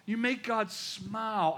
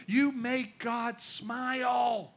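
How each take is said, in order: First: Said in the usual way. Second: You make God smile, drawn out very slowly; tender, very slow repeat for emphasis. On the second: Shown as a demonstration. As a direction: lean in and stretch every word of "you make God smile".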